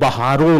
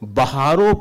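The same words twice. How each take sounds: First: The final vowel is nasalized. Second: The final vowel is plain, not nasalized. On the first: The speaker calls it wrong. "उसमें बहारों नहीं है" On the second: The speaker calls it right. "सितारों रागनी गाओ बिंदी नहीं लगी है"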